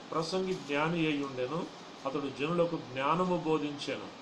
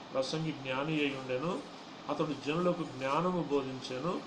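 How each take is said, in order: Both takes have the same delivery.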